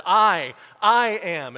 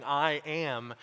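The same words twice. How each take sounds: First: "I, I am" slow, much louder and higher, each word hit hard; forceful, emphatic. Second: Said in the usual way. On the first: Shown as a demonstration. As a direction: thunder out "I, I am" slowly with full force. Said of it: "It's very forceful". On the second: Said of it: "something that Jesus is simply saying".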